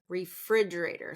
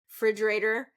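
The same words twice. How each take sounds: First: The first syllable is kept. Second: The first syllable is dropped. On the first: The speaker calls it right. "still get that re in there" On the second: The speaker calls it wrong. "drop the, the first syllable of the word"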